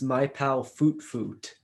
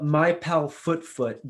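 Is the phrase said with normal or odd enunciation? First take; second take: odd; normal. First: The phrase is said with strange, unusual enunciation. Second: The phrase is said with ordinary pronunciation.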